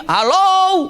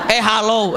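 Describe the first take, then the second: First: High, loud call of hello; demo shout. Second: Said in the usual way. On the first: Shown as a demonstration. Preacher shows how loud Abbas shouts, high call. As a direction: call it out across the room. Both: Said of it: "Jadi kalau teriak di sini".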